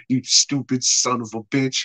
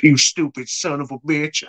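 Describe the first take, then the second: First: Said in the usual way. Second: Attempted Southern accent. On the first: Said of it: "The cop's like". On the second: Storyteller imitates the cop insulting Davey, attempted Southern accent. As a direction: try a weird Southern accent. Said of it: "like, a weird Southern accent all of a sudden".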